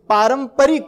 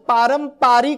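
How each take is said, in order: First: The second syllable has a short 'pa' vowel. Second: The second syllable has a long 'paa' vowel. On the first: The speaker calls it right. "पारंपरिक असा यायला पाहिजे" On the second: The speaker calls it wrong. "आपण पारंपरिक असं म्हणत होतो माहिती आहे पूर्वी"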